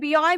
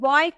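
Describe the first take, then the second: First: The word starts with a full 'bee' sound. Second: The word starts with a plain 'b' sound. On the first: The speaker calls it wrong. "क्योंकि हम तो इसे बी पढ़ते हैं ना" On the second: The speaker calls it right. "बी को बी नहीं ब बोलेंगे"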